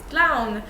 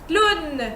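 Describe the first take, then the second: First: The W is sounded at the start. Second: The W is silent, giving an oo sound. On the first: This is the English way. "you recognize this word" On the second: This is the French way. "in French it's clown"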